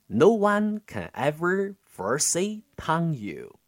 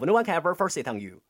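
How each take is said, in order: First: It is spoken slowly with exaggerated mouth movements. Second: It is spoken very fast. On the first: "这时候是慢速、夸张口型的去进行练习" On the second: "第二个建议的话是要超级快速"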